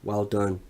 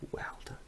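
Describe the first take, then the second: First: Said in the usual way. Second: A faint whispered well done. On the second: Shown as a demonstration. Congratulating the new champion, fading to a whisper. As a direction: breathe it out with almost no voice.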